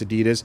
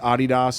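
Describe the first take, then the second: First: Adidas is said the way Americans say it. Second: Adidas is said the way Europeans say it. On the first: The speaker is from the United States. "If you're from the States, it's Adidas" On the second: The speaker is from Europe. "if you're from Europe, it's Adidas"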